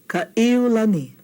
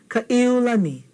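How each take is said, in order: Both takes have the same delivery.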